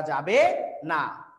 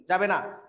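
First: "যাবে না" stretched very slow, falling hard at the end; teacher drags out "যাবে না" to drive the rule home; emphatic drawn-out no. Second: Said in the usual way. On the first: Shown as a demonstration. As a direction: lean on "যাবে না" slowly, each syllable drawn out. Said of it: "কোনোভাবেই আঞ্চলিক রীতি ব্যবহার করা". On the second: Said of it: "যাবে কি?".

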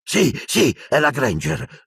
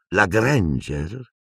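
First: High, eager "sì, sì", then falling on "è la Granger"; pitched-up exclamation, "è la Granger" firmly falling; excited cry. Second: Very slow "la Granger", rising in a question; lingering, questioning "la Granger"; murmured question. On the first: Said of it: "gridò Lucius". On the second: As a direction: draw out "la Granger" in dawning recognition. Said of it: "mormorò". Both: A narrator's reading.

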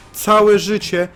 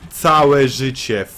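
First: High, loud indignant repeat; first take high and loud; indignant cry. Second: Slow, stretched-out repeat; second take slow and drawn out; slow drawn-out lament. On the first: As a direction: cry it out in disbelief. Repeats complaint in disbelief. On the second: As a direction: drag each syllable out in despair. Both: Real, not acted.

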